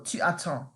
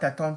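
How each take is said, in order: First: The vowel of tu is fully kept. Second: The vowel of tu is dropped and joined. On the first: It is the standard, careful form. "you have to keep the tu" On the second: It is casual, informal speech. "unless you want to talk like informally"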